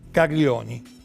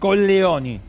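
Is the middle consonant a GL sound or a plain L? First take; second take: GL sound; plain L. First: The middle consonant is a palatal GL sound. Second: The middle consonant is a plain L sound. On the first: It sounds like the Italian word for testicles. The speaker calls it wrong. "Colleoni, perdón" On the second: It is the countess's real name. The speaker calls it right. "pronunciémoslo bien"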